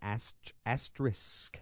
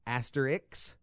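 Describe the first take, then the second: First: The word ends with an sk sound. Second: The word ends with a ks sound. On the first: The speaker calls it right. "It ends in SK. The proper pronunciation" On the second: The speaker calls it wrong. "A lot of people say asterix. Like there's an X at the end"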